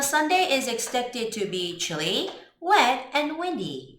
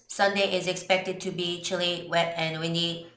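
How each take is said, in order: First: The pitch moves up and down with variety. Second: The pitch stays flat and monotone throughout. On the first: The speaker calls it right. "이런 식으로 뭔가 이렇게 억양의 다양성을 좀 주면 좋겠어요" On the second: The speaker calls it wrong. "It's so robotic"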